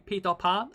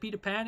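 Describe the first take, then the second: First: The name is pronounced with German sounds. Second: The name is pronounced with English sounds. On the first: "In German you say Peter Pan" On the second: "Do you say Peter Pan in English?"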